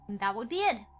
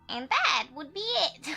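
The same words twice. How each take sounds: First: It is read in the speaker's ordinary voice. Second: It is read in an old woman's voice.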